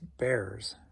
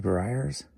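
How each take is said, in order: First: The name sounds like 'Bears', with one syllable. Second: The name sounds like 'Briars', with two syllables. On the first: The speaker calls it right. "It's Bears" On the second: The speaker calls it wrong. "Someone told me I said that wrong"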